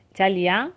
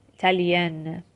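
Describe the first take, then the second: First: 'ایتالیا' with a nasal last vowel, no n; French nasal vowel at the end of 'ایتالیا'. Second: 'ایتالین' with the n completely pronounced; full final n. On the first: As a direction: end 'ایتالیا' through the nose. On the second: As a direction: close 'ایتالین' on a lingering, released n. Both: Shown as a demonstration.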